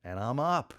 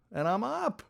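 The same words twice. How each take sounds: First: Said in the usual way. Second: High-pitched, amazed little cheer; elated realization. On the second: Retold or imitated. Skier finally standing on the water, elated. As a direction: repeat it an octave up in delight.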